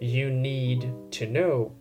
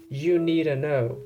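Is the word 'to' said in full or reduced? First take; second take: full; reduced. First: The word 'to' is said clearly in full. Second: The word 'to' is reduced to a weak 'a'.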